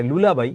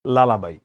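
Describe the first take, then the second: First: লুলাবাই with an oo sound at the start; লুলাবাই pronounced lu-la-bai; wrong pronunciation. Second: লালাবাই with an open a sound at the start; লালাবাই pronounced la-la-bai; correct pronunciation. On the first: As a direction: say লুলাবাই as lu-la-bai, the common mistake. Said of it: "অনেকে উচ্চারণটা ভুল করে". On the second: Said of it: "এটা উচ্চারণ হচ্ছে লালাবাই". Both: Shown as a demonstration.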